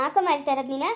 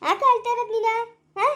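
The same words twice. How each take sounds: First: Said in the usual way. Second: Higher, pointed repeat of the question; pressing repeat. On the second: Acted. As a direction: push the question again, higher. (ಎತ್ತರದ ಧ್ವನಿಯಲ್ಲಿ ಒತ್ತಿ ಕೇಳುವುದು)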